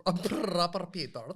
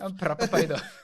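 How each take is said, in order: First: Put-on louder British lad accent; proper British reality-show lad; Love Island British accent. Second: Put-on British lad accent through laughter; Love Island accent, cracking up; laughing British accent. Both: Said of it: "the Love Island one?".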